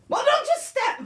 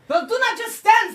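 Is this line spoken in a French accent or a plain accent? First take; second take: plain; French. First: It is spoken without a French accent. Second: It is spoken in a French accent. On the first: The speaker calls it wrong. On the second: The speaker calls it right.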